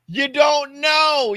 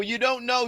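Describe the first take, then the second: First: High, loud, slow insistence; emphatic shout. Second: Said in the usual way. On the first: Real, not acted. A comic arguing to his podcast co-hosts, slow loud shout. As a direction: hammer it home, slowly and loudly. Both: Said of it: "repeated emphatic point".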